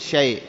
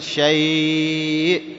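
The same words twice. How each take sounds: First: The vowel before the hamza is kept short. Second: The vowel before the hamza is held long. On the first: "بدون أن تمدها" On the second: "بدل ما تقول"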